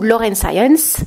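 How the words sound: The name is pronounced with English sounds.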